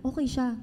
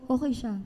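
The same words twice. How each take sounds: The two takes are said the same way.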